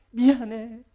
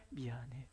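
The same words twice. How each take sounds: First: Louder, forceful sorry; preacher calling out a firm sorry. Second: Softer, lower sorry; preacher murmuring a quiet sorry. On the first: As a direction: say it out firmly. Sorry answered loudly. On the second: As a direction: say it gently, almost under breath. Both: Acted.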